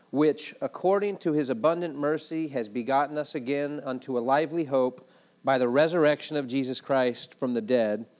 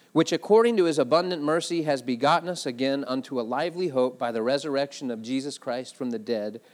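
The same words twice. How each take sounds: Both takes have the same delivery.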